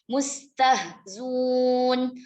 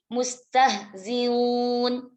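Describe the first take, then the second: First: The hamzah is dropped and the vowel before becomes u. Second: The hamzah is softened between the two vowels. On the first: "Bihadfil hamzati ma'adhammi ma qablaha" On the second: "bitashilil hamzati baina-baina"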